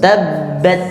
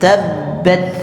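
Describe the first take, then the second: The two takes are said the same way.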